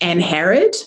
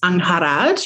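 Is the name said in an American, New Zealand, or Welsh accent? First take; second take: American; Welsh. First: The name is said in a North American accent. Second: The name is said in Welsh, with a rolled R. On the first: "Canadian or America is more like anharrid" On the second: "the proper Welsh pronunciation ... You roll the R"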